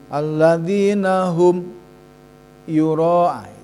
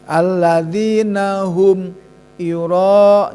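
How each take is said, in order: First: The voice halts and holds after 'hum'. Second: The words flow on with no hold after 'hum'. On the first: "Kalau secara terbata-bata" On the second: "Jadi situ tidak ada tahanan"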